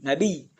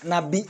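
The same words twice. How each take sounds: First: The word ends with a doubled y sound. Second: The word ends with a glottal stop. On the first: "ya-nya ada dua maksudnya ditasdid ya nabi gitu" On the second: "nabi ini dengan hamzah"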